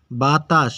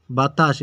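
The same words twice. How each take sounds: First: বাতাস lightly split into two syllables; broken into syllables. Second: Said in the usual way. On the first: Shown as a demonstration. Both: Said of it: "ভেঙে উচ্চারণ".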